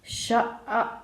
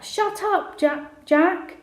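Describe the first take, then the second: First: Mocking echo in a silly voice; stupid voice. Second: Higher-pitched, mildly raised shout; shouted back. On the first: Brother repeating his sister's words, mocking stupid voice. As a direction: parrot it back in a stupid voice. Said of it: "started doing his stupid voice". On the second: Sister telling teasing brother to shut up, shouted. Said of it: "Amy shouted back". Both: A narrator's reading.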